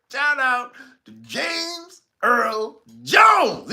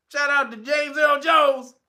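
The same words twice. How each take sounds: First: Slow drawn-out shout-out. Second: Said in the usual way. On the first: Real, not acted. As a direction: stretch every word of "Shout out to James Earl Jones" out long.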